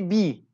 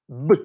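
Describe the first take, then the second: First: The letter name is said as in English. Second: The letter name is said as in Turkish. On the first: "In English, we can say B" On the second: "In Turkish, there is no B. It's B"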